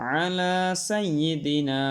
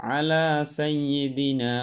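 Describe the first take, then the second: No difference in how they are said.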